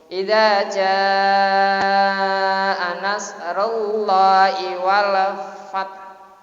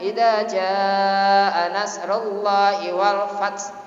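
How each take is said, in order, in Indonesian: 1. Bunyi h terakhirnya polos, tanpa desisan. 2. Bunyi h terakhirnya berdesis, mirip bunyi s. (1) "kan hak" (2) "Wong hak dibaca desir itu gimana?"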